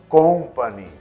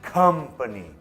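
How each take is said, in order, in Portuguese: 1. A primeira sílaba tem uma vogal 'o' arredondada. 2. A primeira sílaba tem uma vogal 'uh' curta. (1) "Muitos brasileiros falam company, não é com, de ah, eu gosto de café com açúcar" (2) "É come, uh, uh"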